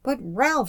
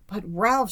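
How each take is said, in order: First: High-pitched indignant protest; raised, swooping exclamation of indignation; indignant cry. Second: Higher-pitched cry of alarm; a touch of worried urgency; alarmed exclamation. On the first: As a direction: cry the name out in reproach. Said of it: "she cried ... eyes flamed with indignation". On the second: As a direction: exclaim the name in mild alarm. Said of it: "exclaimed in a voice of alarm". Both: A narrator's reading.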